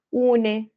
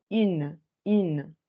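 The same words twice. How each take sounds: First: UNE in two syllables, "OO-neh"; sounded final E. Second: IN as French "une", silent E; pursed French u in IN, then clear N; denasalized feminine. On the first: Teacher showing what not to say, UNE with sounded E. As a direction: wrongly voice the last E of UNE. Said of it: "pronunciar la E, no voy a decir". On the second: Teacher giving the correct feminine, denasalized IN. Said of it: "sí la voy a desnasalizar". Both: Shown as a demonstration.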